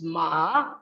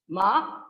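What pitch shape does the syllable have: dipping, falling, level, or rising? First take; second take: dipping; rising. First: The pitch dips low, then rises. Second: The pitch rises from mid to high. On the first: It means horse. "ma with low or falling then rising pitch" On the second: It means hemp. "Ma with high rising pitch"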